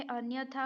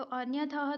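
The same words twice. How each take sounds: First: अन्यथा ending in a long "thaa"; the proper long-vowel ending of अन्यथा; correct form. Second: अन्यतः ending in "ta-ha"; the mistaken breath ending on अन्यतः; wrong form. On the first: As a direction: end अन्यथा on open aa, no h. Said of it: "अन्यथा होता है". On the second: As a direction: sound the final h of अन्यतः. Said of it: "अन्यतः तो नहीं होता है". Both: Shown as a demonstration.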